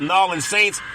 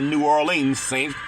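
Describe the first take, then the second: First: The city name is squeezed into two short syllables. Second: The city name is said in full, every syllable. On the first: "I'm gonna call them the Nolans Saints" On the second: "some people say New Orleans Saints"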